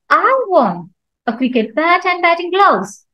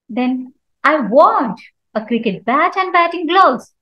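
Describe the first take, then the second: First: The stress falls on the word I. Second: The stress falls on the word want. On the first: Nobody else wants them. "So here I'm stressing on I" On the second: The buyer wants to buy, not just look. "So here I'm giving stress on want"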